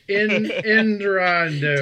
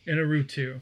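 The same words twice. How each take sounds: First: The name is said with extra sounds added. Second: The name is said without added sounds. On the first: Someone else said it badly. The speaker calls it wrong. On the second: The name's owner said it this way. The speaker calls it right.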